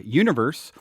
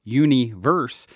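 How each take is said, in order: First: Said in the usual way. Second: Universe said slowly as uni-verse, one song; split pronunciation. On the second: Shown as a demonstration. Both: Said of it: "or universe".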